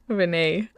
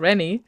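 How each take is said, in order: First: The name is said as 'Renee'. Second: The name is said as 'Rennie'. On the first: The speaker calls it right. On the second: The speaker calls it wrong.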